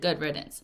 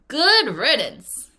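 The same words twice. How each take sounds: First: It is said flatly, without feeling. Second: It is said with strong, pleased feeling.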